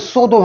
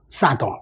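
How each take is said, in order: First: It is said in a British accent. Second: It is said in an American accent. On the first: "영국 사람 같으면 소도 하겠지만" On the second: "미국 사람들은 이제 이걸 알아니까 싸더"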